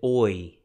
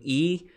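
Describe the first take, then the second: First: The vowel sounds like 'oy'. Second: The vowel sounds like 'ee'. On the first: This is the Erasmian pronunciation. "Erasmian pronounces it oi" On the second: This is the modern Greek pronunciation. "instead of omicron iota being E"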